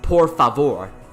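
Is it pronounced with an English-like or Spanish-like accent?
Spanish-like. It is said with Spanish-style vowels and r. The speaker calls it right. "it was por favor"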